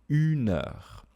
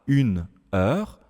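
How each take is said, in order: First: The consonant runs straight into the next vowel. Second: The two words are said separately, not linked. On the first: The speaker calls it right. "je dis une heure" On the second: The speaker calls it wrong. "Je ne dis pas une heure"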